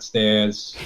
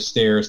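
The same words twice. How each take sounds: First: The R sound at the end is dropped. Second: The R sound at the end is pronounced. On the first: This is the speaker's old Staten Island accent. "not stairs" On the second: This is how the speaker talks now. "I now pronounce R's, so I'll say stairs"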